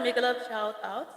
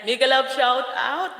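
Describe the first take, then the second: First: Said in the usual way. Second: Slow, louder, each word spelled out; reading the comment again slowly after stumbling, careful. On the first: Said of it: "nabubulol ako dito magbasa". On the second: Shown as a demonstration. Slow, deliberate read. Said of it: "pagbasa ko niyan".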